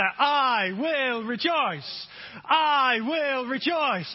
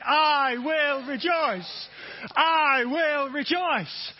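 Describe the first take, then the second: First: Slow, steady group chant; chanted, lead the congregation slowly; preacher chanting with the crowd; slow call-and-response chant. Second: Slow, louder, fuller chant; preacher urging more effort from the room. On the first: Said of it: "Let's say it together". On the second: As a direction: push it out with more force. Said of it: "More effort". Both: Shown as a demonstration.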